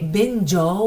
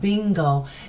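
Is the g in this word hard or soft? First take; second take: soft; hard. First: The g is soft, like a j sound. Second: The g is hard, as in go. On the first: The speaker calls it wrong. "we did not say bingo" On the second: The speaker calls it right. "we said bingo"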